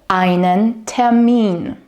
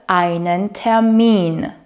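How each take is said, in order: The two takes are said the same way.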